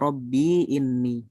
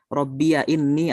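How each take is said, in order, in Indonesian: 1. Ya setelah rabbi tidak berharakat. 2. Ya setelah rabbi berharakat fathah. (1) "bisa dengan sukun ya" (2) "Bisa dengan fathah"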